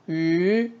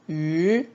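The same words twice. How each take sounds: First: The pitch stays high and level. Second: The same.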